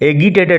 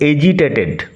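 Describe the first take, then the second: First: The g is hard, as in go. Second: The g is soft, like j. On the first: The speaker calls it wrong. "এগিটেটেড নয়" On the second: The speaker calls it right. "উচ্চারণ হচ্ছে এজিটেটেড"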